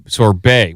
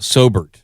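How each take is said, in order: First: The word ends with a 'bay' sound. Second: The word ends with a 'bert' sound. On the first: The speaker calls it right. "Oh, sor- sorbet" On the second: The speaker calls it wrong. "in Ohio we call it Sobert"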